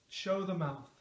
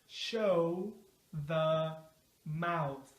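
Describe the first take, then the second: First: The phrase is said quickly, at natural speed. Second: The phrase is said slowly and carefully. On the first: "Now at a natural speed" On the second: "Let's say it slow at first"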